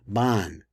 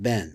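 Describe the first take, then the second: First: It is said with an Ashkenazi pronunciation. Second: It is said with a non-Ashkenazi pronunciation. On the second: "is pronounced Ben"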